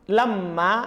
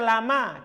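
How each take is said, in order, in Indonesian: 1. Bunyi m itu dobel dan ditahan. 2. Bunyi m itu pendek dan tunggal. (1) "lamma bermakna illa" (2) "Supaya itu lam dan ma"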